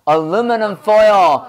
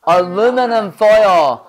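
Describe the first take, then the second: The two takes are said the same way.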